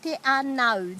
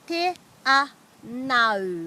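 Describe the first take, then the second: First: The syllables run together without pauses. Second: Each syllable is separated by a short pause.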